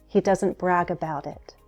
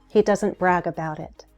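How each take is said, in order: Both takes have the same delivery.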